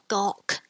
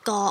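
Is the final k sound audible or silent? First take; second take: audible; silent. First: The final k sound is clearly released. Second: The final k sound is not heard. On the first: The speaker calls it wrong. "So you don't go gawk" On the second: The speaker calls it right. "Remember the K is non-audible"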